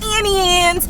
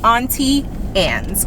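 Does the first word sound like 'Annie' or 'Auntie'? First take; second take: Annie; Auntie. First: The first word sounds like 'Annie', without a t. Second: The first word sounds like 'Auntie', with a t. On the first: The speaker calls it wrong. "I don't know why people be saying Annie Anne's" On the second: The speaker calls it right. "It's A U, that's all. Auntie"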